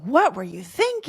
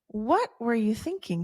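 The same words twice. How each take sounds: First: It sounds accusing and irritated. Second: It sounds genuinely curious and open.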